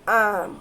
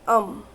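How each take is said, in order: First: The vowel is a full, open 'a' sound. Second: The vowel is a short, weak 'uh' sound. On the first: "ए says ॲम" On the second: "पण बोलताना अम"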